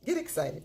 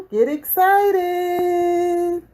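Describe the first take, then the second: First: Said in the usual way. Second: Much higher, very slow, crooned out; sung jingle. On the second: Acted. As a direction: sing "Get excited" like a drawn-out jingle. Sung intro tag.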